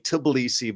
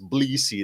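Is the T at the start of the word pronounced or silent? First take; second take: pronounced; silent. First: The word begins with an audible T sound. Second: The word begins without any T sound. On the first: The speaker calls it wrong. "Some of you might say Tbilisi" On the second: The speaker calls it right. "it's really pronounced Tbilisi. They don't say the T"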